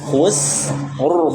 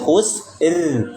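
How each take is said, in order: First: The sound after the s is like 'ur'. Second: The sound after the s is like 'ir'. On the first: The speaker calls it right. "Kalau kita slowkan khus ur" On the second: The speaker calls it wrong. "bukan bukan begini khus ir"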